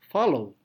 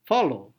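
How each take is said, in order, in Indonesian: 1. Penekanan ada pada suku kata kedua. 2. Penekanan ada pada suku kata kedua.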